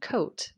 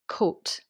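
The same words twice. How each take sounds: First: An English accent with a longer gliding vowel. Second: A Scottish accent with a short vowel. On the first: "as an English person might say it" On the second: "the short coat, as a Scottish person might say it"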